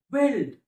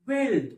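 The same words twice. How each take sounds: The two takes are said the same way.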